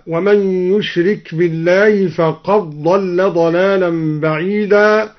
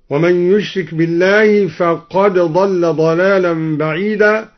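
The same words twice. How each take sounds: First: فقد ضل with the د swallowed into a doubled ض; فقد ضل read faqaḍḍalla; d merged into ḍ. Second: Said in the usual way. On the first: Shown as a demonstration. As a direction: run فقد into ضل on one long ḍ. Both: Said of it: "أدغم الدوري الدال في الضاد هكذا".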